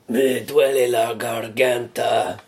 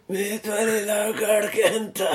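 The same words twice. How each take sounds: First: It is said in a clear, normal voice. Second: It is said in a hoarse, strained voice.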